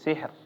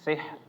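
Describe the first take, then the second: The two takes are said the same way.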